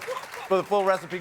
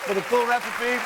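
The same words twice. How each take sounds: First: Said in the usual way. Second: Talking through a mouthful; mouth full. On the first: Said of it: "I'm sorry I'm talking with my mouth full". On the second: Real, not acted. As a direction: say it while chewing food. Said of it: "I'm talking with my mouth full".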